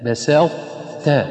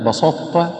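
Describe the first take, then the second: First: The sin and final ta are light. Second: The sin and final ta are heavy. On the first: The speaker calls it right. "والصواب أن يرقق السين ويرقق التاء الأخيرة" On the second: The speaker calls it wrong. "أما بسطة فهذا خطأ"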